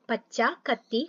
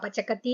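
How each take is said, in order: First: Said as two words without a doubled k. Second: Said as one word with a doubled k. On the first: The speaker calls it right. "അങ്ങനെ" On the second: The speaker calls it wrong. "പച്ചക്കത്തി എന്ന് വായിക്കരുത്"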